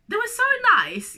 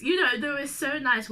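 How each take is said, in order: First: Gushing, much higher and louder. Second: Said in the usual way. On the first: Real, not acted. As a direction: gush it out, high and bright.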